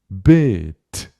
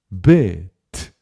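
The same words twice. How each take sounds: The two takes are said the same way.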